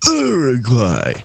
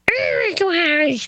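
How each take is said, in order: First: An adult voice, as if punched in the stomach. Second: A little kid's voice, as if punched in the stomach.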